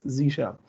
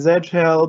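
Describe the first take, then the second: First: The letter is pronounced zee. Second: The letter is pronounced zed. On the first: This is the American way of saying it. The speaker calls it right. "but then the pun doesn't work, so it's Z shell" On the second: This is the international way of saying it. The speaker calls it wrong. "for the international ones, they usually want to say Z shell"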